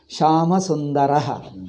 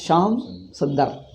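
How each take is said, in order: First: The final vowels of each word are kept. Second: The final vowels of each word are dropped.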